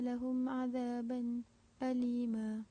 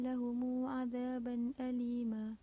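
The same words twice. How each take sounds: First: A brief silent break comes before alima. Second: Lahum ends with an added lengthened u vowel. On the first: "khalaf saktah pada azaban alima" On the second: "qalun dengan silah mim jamak"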